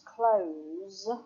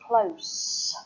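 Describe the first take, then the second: First: The final consonant is a buzzing Z sound. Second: The final consonant is a hissing S sound. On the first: It is the verb meaning to shut something. "the pronunciation for the verb is close with a Z sound" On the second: It is the noun or adverb meaning near or a small street. "for the noun and the adverb, it's close with an S sound"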